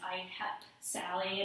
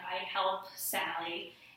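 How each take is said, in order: First: The L in help is left out. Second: The L in help is clearly pronounced. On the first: "he might pronounce that as I help Sally and not pronounce the L" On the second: "it might say something like"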